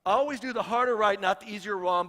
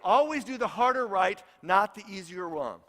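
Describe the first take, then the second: First: HARDER stressed on the repeat; repeated for emphasis. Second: Firm, emphatic motto read; quoting a motto with conviction; quoted motto. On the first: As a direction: stress "harder" and "not" firmly. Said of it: "repeated for emphasis". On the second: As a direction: lean on harder and easier. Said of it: "I love his statement". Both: Shown as a demonstration.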